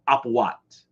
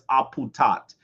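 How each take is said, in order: First: No t sound comes before the final vowel. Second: A t sound comes before the final vowel. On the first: This is how the speaker's own community says it. "Usually in the Shrine of Ptah, we would pronounce that apuat" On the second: This is how someone else said it. "he says aputat"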